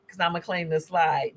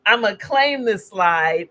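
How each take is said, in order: First: Said in the usual way. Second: Slow, deliberate, stress on claim; emphatic claim. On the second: Real, not acted. Presenter to audience, owning her favorite slide, slow and emphatic. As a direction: plant your flag on claim, slowly. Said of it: "you've seen this slide".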